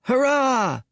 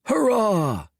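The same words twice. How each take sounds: First: High squeaky cheer. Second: Many voices cheering back; crowd cheer. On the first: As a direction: cheer like a mascot. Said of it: "cried Sun". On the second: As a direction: answer the cheer together. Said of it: "cried everyone else". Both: A narrator's reading.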